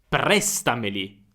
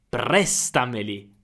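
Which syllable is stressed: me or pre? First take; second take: pre; pre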